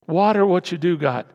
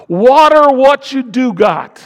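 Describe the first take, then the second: First: Said in the usual way. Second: High, loud, slow command; forceful preacher's shout. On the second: Real, not acted. Preacher urging congregation to nurture what they have, shouted. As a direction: belt it out, stretching each word. Climax of exhortation, then repeated calmly.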